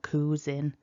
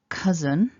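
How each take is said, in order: First: The first vowel is a long oo sound. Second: The first vowel is a short uh sound. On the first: The speaker calls it wrong. "creating a longer vowel" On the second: The speaker calls it right. "the pronunciation is cousin"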